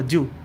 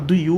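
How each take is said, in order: First: The two words are blended into one short syllable. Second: Both words are said fully and separately. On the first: "ele fala do" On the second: "Ele não fala do you"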